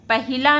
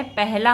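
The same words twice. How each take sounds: First: पहिला said with an extra "i": pa-hi-la; wrong form. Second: पहला said without the middle vowel: peh-la; correct form. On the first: Teacher to students, reading the wrong form पहिला with the extra i. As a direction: sound the middle "i" clearly in पहिला. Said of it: "पहिला नहीं होता है". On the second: Teacher to students, giving the correct पहला in two syllables. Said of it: "पहला होता है". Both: Shown as a demonstration.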